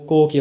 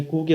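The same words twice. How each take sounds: First: کو said "ko", hard k with an o; hard k, round o in کو; "ko" sound. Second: کو said "koo", hard k with a u; hard k, long oo in کو; "ku" sound. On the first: Teacher shows C followed by O, "ko" sound. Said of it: "کو کی آواز نکلی ہے". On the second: Teacher shows C followed by U, "ku" sound. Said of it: "اس نے کو کی آواز نکالی". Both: Shown as a demonstration.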